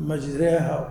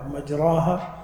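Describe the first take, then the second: First: مجريها with a long "ay/eh" vowel, majreha; imala. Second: Said in the usual way. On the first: Shown as a demonstration. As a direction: tilt the long a in مجريها toward e. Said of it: "بعض العرب يميلون ال". («مجريها» بإمالة الألف) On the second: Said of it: "هذه لهجات".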